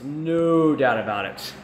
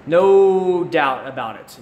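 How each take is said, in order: First: Said in the usual way. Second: Slow, louder emphatic "No doubt about it"; emphatic agreement. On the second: Real, not acted. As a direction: lean hard on "No", stretch the whole phrase slowly. Agreeing with chat about mercenaries.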